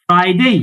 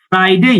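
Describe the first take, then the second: Both takes have the same delivery.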